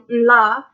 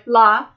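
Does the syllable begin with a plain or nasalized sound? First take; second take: nasalized; plain. First: It begins with a nasal before the L. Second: It begins with a plain tapped L. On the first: "and to pre-nasalize them" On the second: "words that start with the L tap sound, like la"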